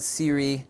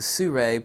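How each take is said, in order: First: The name sounds like Siri. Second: The name sounds like Sue then Ray. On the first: The speaker calls it wrong. "I always mispronounce the uh, company wrong. I call it Siri" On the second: The speaker calls it right. "I always say it like Sue and then Ray"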